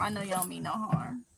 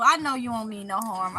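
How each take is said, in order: First: Lower, softer repeat of I know you don't mean no harm; quiet, sincere repeat; soft reassurance. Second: Said in the usual way. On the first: Real, not acted. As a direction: gently reassure the viewers.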